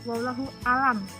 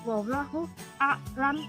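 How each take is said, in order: First: The last word is said as plain alam. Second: The last word has a break before the l. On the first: God is sick. The speaker calls it wrong. "Alam itu artinya penyakit atau sakit" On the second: God knows best. The speaker calls it right. "Jadi yang benar itu"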